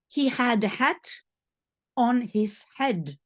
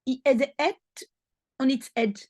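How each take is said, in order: First: The H sounds are clearly pronounced. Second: The H sounds are dropped throughout. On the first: The speaker calls it right. "which is really" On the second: The speaker calls it wrong. "French people are not able to say the H"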